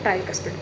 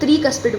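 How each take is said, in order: First: The first syllable has an 'eye' vowel. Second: The first syllable has a short 'ee' vowel. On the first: The speaker calls it wrong. "ट्राई नहीं बोलेंगे" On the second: The speaker calls it right. "त्रिकस्पिड valve है"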